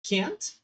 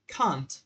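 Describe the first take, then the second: First: Can't with a broad open a, British style; can't, pronúncia britânica. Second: Can't with a flat front a, American style; can't, pronúncia americana. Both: Shown as a demonstration. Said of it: "vocês também podem escutar duas pronúncias".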